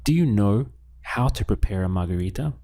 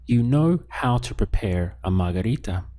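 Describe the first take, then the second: First: "Do you know how to prepare a margarita" rising on margarita; question intonation. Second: "You know how to prepare a margarita" stated, leaning on know; statement intonation. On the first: Teacher prompts learners to ask it, question intonation. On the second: Teacher gives learners a sentence to translate, statement intonation. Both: Shown as a demonstration. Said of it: "Let's ask this as a question now".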